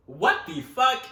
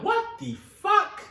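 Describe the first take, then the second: First: Said in the usual way. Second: Much higher, louder, slow, drawn out; drawn-out shocked what the fuck; stunned. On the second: Retold or imitated. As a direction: gasp it in disbelief. Family finds the cat.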